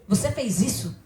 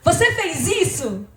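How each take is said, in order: First: The voice sounds angry and annoyed. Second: The voice sounds happy and cheerful. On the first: "Se eu falar zangada" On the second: "se eu falar alegre"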